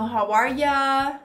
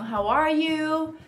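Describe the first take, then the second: First: The last word is a reduced 'ya'. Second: The last word is a full 'you'. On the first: "Que é uma variação de you" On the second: "Tem o How are you?"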